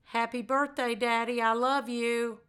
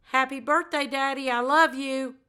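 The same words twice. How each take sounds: First: Plain, unhurried and even; not rushed. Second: Lifted, a bit higher than her usual. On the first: Daughter to her late father, unhurried and plain. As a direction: take your time with each word. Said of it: "but not rush". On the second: Daughter to her late father, in a slightly higher voice. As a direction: say it up in a brighter, higher register. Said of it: "do it one more time in that high voice". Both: Shown as a demonstration.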